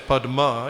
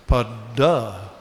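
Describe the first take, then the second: First: The middle sounds are d followed by m. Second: The middle sound is a long doubled d. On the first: This is not the Bengali form. "in Bengali they don't say Padma" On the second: This is the Bengali form. "You know what they say? Padda"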